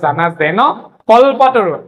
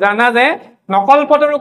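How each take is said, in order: First: The 'n' ends the word before 'kalpataru'. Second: The 'n' starts the word 'kalpataru'. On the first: It means 'like the wish-fulfilling tree'. The speaker calls it right. "ইয়াত ভুল নকৰিবা।" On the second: It turns into 'not the wish-fulfilling tree'. The speaker calls it wrong. "জানা যে নকল্পতৰু কৈ দিয়া যায়"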